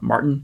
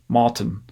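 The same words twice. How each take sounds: First: The R after the first vowel is pronounced. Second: There is no R, and the second vowel is further back. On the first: This is how North Americans say it. "he doesn't actually say the R in his name like we would in Canada or the U S, not Martin" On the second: This is how the South African friend says it. "he says Martin"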